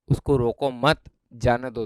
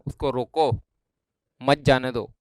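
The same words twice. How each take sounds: First: Group रोको with मत, pausing before a slow जाने दो; pause after मत. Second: उसको रोको, then a clear break before मत जाने दो; group मत with जाने दो, pausing after रोको; pause after रोको. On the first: Teacher showing the opposite meaning, pause moved to after मत. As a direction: run रोको straight into मत, then break before जाने दो. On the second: Teacher showing how a pause changes meaning, break after रोको. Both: Shown as a demonstration. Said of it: "दोनों word अलग अलग हो गए".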